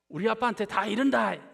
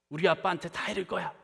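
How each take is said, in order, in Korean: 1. 사투리로 감정을 살려 말해요. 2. 표준어로 담담하게 말해요. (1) "조금 낫죠" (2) "이게 제 원어인 사투리가 아니기 때문에 감정이 실리지 않습니다"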